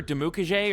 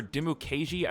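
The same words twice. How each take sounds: First: Dimukeje ending in a "jay" sound; first pronunciation variant. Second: Dimukeji ending in a "jee" sound; alternative pronunciation. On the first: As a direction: say Dimukeje with the last syllable like "jay". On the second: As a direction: say Dimukeji with the last syllable like "jee". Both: Shown as a demonstration. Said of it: "I've heard it pronounced both ways".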